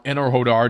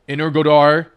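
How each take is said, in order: First: The name is pronounced the Ukrainian way. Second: The name is pronounced the Russian way. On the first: "depending on how you pronounce it in Russian or Ukrainian" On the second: "depending on how you pronounce it in Russian or Ukrainian"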